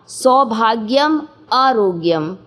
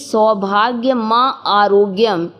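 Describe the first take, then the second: First: The break falls after the m sound. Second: The break falls before the m sound. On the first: Good fortune and health are both asked for. The speaker calls it right. "जबकि उसको पढ़ना था" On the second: Good fortune is asked of the mother, then health. The speaker calls it wrong. "हम गलत पढ़ते थे"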